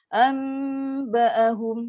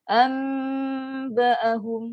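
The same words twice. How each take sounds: The two takes are said the same way.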